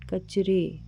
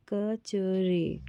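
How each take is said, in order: First: Said in the usual way. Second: कचरे said very slowly, syllable by syllable; teacher sounding out कचरे for children. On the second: Shown as a demonstration. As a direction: stretch कचरे out so each sound is heard. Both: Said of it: "रा में ए की मात्रा लगी है तो रे".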